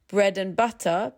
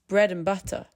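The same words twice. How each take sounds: First: The word and keeps its full vowel. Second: The word and shrinks to schwa.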